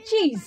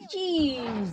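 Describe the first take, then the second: First: Said in the usual way. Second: চিজ with a long, drawn-out ee; long vowel. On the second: Shown as a demonstration. Teacher showing students the long ee, চিজ drawn out. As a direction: stretch the ee in চিজ, softer and falling. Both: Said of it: "ই উচ্চারণ কখন হচ্ছে".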